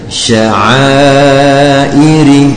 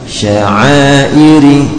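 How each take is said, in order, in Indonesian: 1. Vokal panjang dibaca empat harakat. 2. Vokal panjang dibaca dua harakat. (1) "wajib dibaca dengan empat harokat" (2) "Ukuran dua harokatnya"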